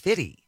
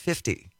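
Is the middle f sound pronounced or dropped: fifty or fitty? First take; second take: fitty; fifty. First: The middle f sound is dropped. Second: The middle f sound is clearly pronounced. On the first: "no, it's 50" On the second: "I pronounced it 50"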